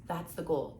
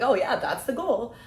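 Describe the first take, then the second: First: Said in the usual way. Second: Higher, louder, slow and breezy; playing it off as a joke. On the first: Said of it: "when you say the phrase". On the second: Shown as a demonstration. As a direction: toss it off like a light joke. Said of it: "play it off almost as a joke".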